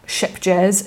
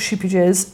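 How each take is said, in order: First: The name sounds like ship jazz. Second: The name sounds like sheepy jazz. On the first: "it's not ship jazz" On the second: "it's not sheepy jazz"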